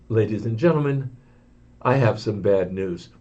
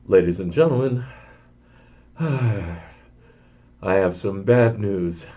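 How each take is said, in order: First: Much lower, softer grave announcement; a worried pilot over the intercom; apprehensive pilot. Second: A worried pilot over the intercom, with a sigh; apprehensive pilot. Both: Retold or imitated. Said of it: "you could hear it in his voice, the apprehension".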